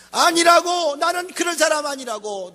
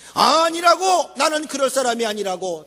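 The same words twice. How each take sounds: First: Peter's indignant denial. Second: Proud slow denial. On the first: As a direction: insist hotly that you're not that kind of man. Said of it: "너무 자기를 과신했던 거요". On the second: Preacher replaying Peter's boast, slow and proudly emphatic. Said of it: "당당하게 자기를 믿은 거요". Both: Retold or imitated.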